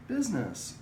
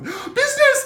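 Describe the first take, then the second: First: It is said in a calm, slightly sweet tone. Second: It is said with loud, high excitement. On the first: The dog is cued without being interrupted. The speaker calls it right. "in a normal tone of voice, a little bit of sugar in your voice" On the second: The owner is thrilled the dog is not peeing indoors. The speaker calls it wrong. "we put so much excitement in it"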